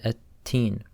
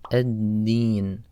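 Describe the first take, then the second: First: The consonants are voiceless t sounds. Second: The consonants are voiced d sounds. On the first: The speaker calls it wrong. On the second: The speaker calls it right.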